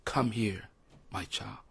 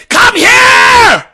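First: Much softer, lower, hushed call; barely above a breath, tender; God calling gently in a still small voice. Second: High, loud booming command; a mock bullhorn call; bullhorn shout. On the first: Retold or imitated. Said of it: "God is speaking in a still small voice". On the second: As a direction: blast it like through a bullhorn. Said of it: "listening for the bullhorn".

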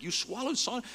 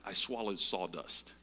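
First: High, loud incredulous repeat of swallowed sawdust; astonished question. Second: Said in the usual way. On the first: Retold or imitated. Speaker repeating the stranger's words, astonished and high. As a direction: squeak it out in disbelief. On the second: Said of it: "he said something that sounded like".

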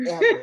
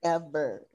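First: High, louder burst of EVER; high emphatic repeat. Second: EVER dropped low with a falling end; low deadpan repeat. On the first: Host hammers home her praise of the scene, high emphatic EVER. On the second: Host seals her praise of the scene, low final EVER. Repeats word, now settling down. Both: Real, not acted.

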